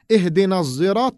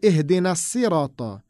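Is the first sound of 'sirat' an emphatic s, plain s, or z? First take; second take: z; plain s. First: The word begins with a buzzing z sound. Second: The word begins with a light, plain s sound. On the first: This is a third recitation. "another recitation which we say" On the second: This is another recitation. "with the Sin instead of the Sad"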